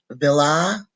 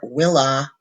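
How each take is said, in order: First: The word begins with a V sound. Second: The word begins with a W sound. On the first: "pronounce the V as a V" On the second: "or a W"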